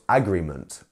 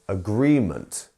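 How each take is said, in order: First: The stress is on the first syllable. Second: The stress is on the second syllable. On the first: The speaker calls it wrong. "not agreement" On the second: The speaker calls it right. "It's the agree bit. It is agreement"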